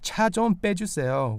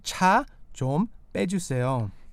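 First: It is said at normal speed. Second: It is said a little more slowly.

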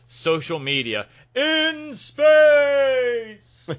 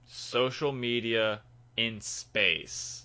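First: It is said dramatically, with lots of energy. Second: It is said flatly, with little energy. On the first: The speaker calls it right. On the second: The speaker calls it wrong.

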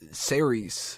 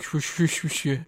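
First: The name sounds like the word Ceres. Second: The name does not sound like Ceres. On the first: This is the reading guessed from the spelling. "I always thought it was, like, Ceres or whatever like that. It's how it's spelled" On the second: This is how other people say it. "but everybody's like, Saoirse"

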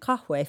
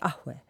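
First: The word starts with a k sound. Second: The word starts with a glottal stop. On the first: This is the formal standard form. "instead of saying kahwe for coffee" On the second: This is the Lebanese-Syrian dialect form. "the ka becomes an alif hamza, like a eh"

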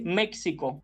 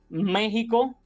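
First: The x sounds like k plus s. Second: The x sounds like a harsh throaty h. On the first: The speaker calls it wrong. "como si la X en esos topónimos representara la K y la S" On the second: The speaker calls it right. "Así diremos, y escuchen bien"

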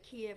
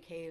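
First: The name is said the Russian way. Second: The name is said the Ukrainian way. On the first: This is the common pronunciation. "Everybody says Kiev" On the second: This is the pronunciation patriotic Ukrainians prefer. "I always say Kyiv. That's my own preference"

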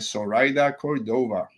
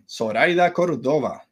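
First: The name is said in an English accent. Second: The name is said in a Spanish accent.

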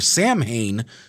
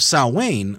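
First: The name has an Americanized pronunciation. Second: The name has its original, non-American pronunciation. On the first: The speaker calls it wrong. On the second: The speaker calls it right.

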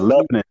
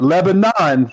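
First: It is said the local Tennessee way. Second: It is said the standard, expected way. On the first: "Yeah, Lebanon" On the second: "Not Lebanon, the way it's supposed to be pronounced"

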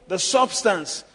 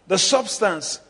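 The two takes are said the same way.

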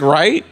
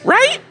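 First: It is said in a normal speaking pitch. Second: It is said in a very high-pitched voice. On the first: "instead of saying like" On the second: "your fucking voice goes like two octaves high"

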